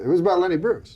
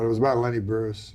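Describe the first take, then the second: First: Higher, louder "it was about Lenny Bruce"; insistent repeat. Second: Said in the usual way. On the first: Real, not acted. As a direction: press "Lenny Bruce" home, raised in pitch and volume.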